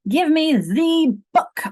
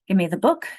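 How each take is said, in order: First: The word 'the' is stressed and said fully. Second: The word 'the' is weak and reduced. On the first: "if I had put stress on it, it would be" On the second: "it's less strong"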